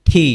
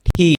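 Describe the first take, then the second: No difference in how they are said.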